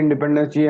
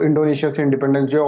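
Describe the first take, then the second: First: Said in the usual way. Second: Quick, pressing retold demand; urgent mock demand. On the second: Teacher voicing East Timor people demanding independence, quick and pressing. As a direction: rattle it off like protesters demanding freedom. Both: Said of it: "इसने बहुत struggle करा कि".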